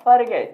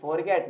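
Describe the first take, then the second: First: Forget as fer-GET, short schwa first; weak "fer", strong "get" in forget; correct pronunciation. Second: Forget as FOR-get, full o; wrong pronunciation. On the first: Teacher giving the proper form, correct pronunciation. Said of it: "ये होता है आपका forget". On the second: Teacher negating the usual form, wrong pronunciation. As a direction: sound "for" fully in forget. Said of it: "ये forget नहीं होता". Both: Shown as a demonstration.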